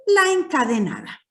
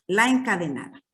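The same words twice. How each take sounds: First: Term called out higher and louder, stress on "la encadenada"; emphatic naming. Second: Said in the usual way. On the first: Shown as a demonstration. Teacher introducing a rhyme type to the class, emphatic. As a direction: announce "la encadenada" as a new term, pitched up and punched.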